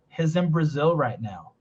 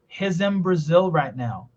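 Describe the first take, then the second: First: He's in is linked smoothly together. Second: The same.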